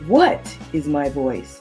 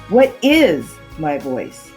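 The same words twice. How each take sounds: First: The word 'what' is emphasized. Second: The word 'is' is emphasized. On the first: "place emphasis on just the first word" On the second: "then the second word"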